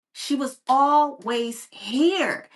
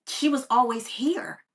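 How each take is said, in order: First: She was always here, said slowly and louder, every word weighted; slow, louder restatement that lands the point; slow emphatic repeat. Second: Said in the usual way. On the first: Real, not acted. Repeats key line for emphasis.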